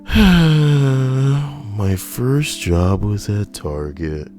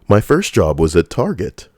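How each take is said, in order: First: It is said in a sad, downcast tone. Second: It is said in an enthusiastic, lively tone. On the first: "You should try it like really sad" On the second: "not as uh, enthusiastic"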